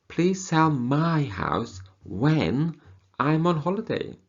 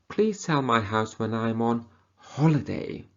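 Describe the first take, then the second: First: The stress falls on the word my. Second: The stress falls on the word on. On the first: It is this person's house, not a relative's. "So it's not sell your sister's house, your brother's house, but my house" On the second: It should happen during the holiday, not before or after. "Not before the holiday or after the holiday"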